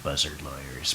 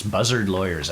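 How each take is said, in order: First: Buzzard lawyers repeated much softer, relishing it; quietly savoring Dreiser's phrase. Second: Said in the usual way. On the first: Shown as a demonstration. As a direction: murmur buzzard lawyers again, enjoying it. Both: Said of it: "I like that".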